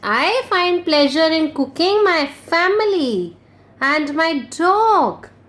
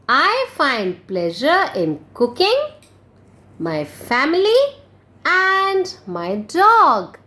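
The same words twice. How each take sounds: First: There is no pause after cooking. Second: There is a pause after cooking.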